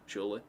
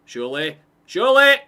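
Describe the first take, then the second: First: Said in the usual way. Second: Each surely louder and higher into a scream; rising excited yell. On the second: Real, not acted. Streamer willing the ball into the net, building scream. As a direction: build from hope to full scream. Chance builds toward goal.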